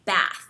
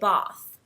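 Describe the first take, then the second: First: It is said with an American accent. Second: It is said with a British accent.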